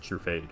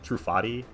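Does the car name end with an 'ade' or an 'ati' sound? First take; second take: ade; ati. First: The name ends like the word 'fade'. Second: The name ends like 'Bugatti', with an 'ati' sound. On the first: The speaker calls it right. "the intended pronunciation is True Fade" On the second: The speaker calls it wrong. "I always say True Th Trufati because it kind of sounds like Bugatti"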